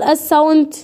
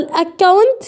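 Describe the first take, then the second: First: "أساونت" with an s in place of the k; wrong S reading. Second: "أكاونت" with a hard k sound; double c as K. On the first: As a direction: misread the double c in "أساونت" as s. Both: Shown as a demonstration. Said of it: "هتقول أساونت ليه".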